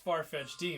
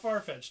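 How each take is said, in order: First: The name ends with an extra 'dee' syllable. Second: The name ends in 'fetched' with no extra syllable. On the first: "it's Farfetch'd D" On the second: "It's not Farfetch'd"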